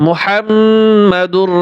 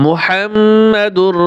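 The two takes are said the same way.

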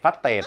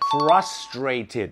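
First: It is said with a Thai accent, not crisp. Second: It is said with a crisp English accent. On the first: The speaker calls it wrong. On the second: The speaker calls it right.

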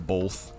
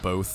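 First: The word is said with an added L sound. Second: The word is said without any L sound. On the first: The speaker calls it wrong. "When people say both. ... Like with an L? Yeah" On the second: The speaker calls it right. "Instead of both"

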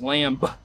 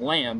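First: The word ends with an audible B sound. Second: The word ends without a B sound. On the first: "they would enunciate the B" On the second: "it wasn't lamb"

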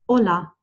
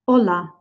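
No difference in how they are said.

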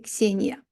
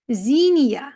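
First: The name begins with a 'ks' sound. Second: The name begins with a 'z' sound. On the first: "але це таки Ксенія" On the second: "Замість «кс» або «гз» ми чуємо «з»"

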